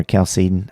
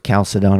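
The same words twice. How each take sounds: First: Chalcedon said kal-SEE-d'n, with reduced ending; alternative pronunciation. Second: Chalcedon said KAL-suh-don, full final "don"; alternative pronunciation. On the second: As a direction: end Chalcedon on a clear "-don". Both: Shown as a demonstration. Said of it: "I'm not sure how you say it".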